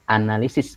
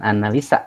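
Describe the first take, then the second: First: The word ends with the syllable 'sis'. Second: The word ends with the syllable 'sa'. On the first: The speaker calls it right. "maka di bahasa Indonesia kan menjadi analisis" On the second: The speaker calls it wrong. "bukan analisa ya"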